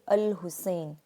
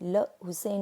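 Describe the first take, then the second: First: It begins with a vowel before the L. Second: It begins directly with an L sound. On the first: The speaker calls it right. "इस तरह पढ़ेंगे अल Hussain" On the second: The speaker calls it wrong. "हम उसे ल हुसैन नहीं पढ़ेंगे"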